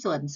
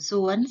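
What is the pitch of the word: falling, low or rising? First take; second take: low; rising. First: The pitch stays low and level. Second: The pitch dips and then rises. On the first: "เติมไม่เอกเสียงเอก" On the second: "สวนพื้นเสียงเป็นเสียงจัตวา"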